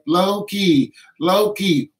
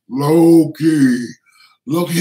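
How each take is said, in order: First: It is said in an ordinary woman's voice. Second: It is said in a huge, deep giant's voice.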